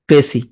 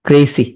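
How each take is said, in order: Both takes have the same delivery.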